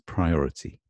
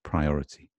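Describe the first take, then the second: First: The T is crisp and clearly pronounced. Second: The same.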